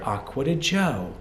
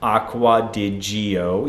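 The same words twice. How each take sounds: First: Gio is read with Italian letter sounds. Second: Gio is read with English letter sounds. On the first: The speaker calls it right. "this in Italian is Acqua di Gio" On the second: The speaker calls it wrong. "you will not hear"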